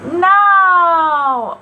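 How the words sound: It is said with a high pitch.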